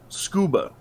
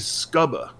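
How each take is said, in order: First: The U is a long vowel. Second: The U is a short vowel. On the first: The speaker calls it right. "you would use the long O sound for that U" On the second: The speaker calls it wrong. "You don't say scuba"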